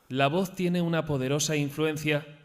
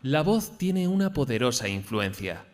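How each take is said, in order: First: It stays high at the end, sounding unfinished. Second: It starts high and falls low at the end.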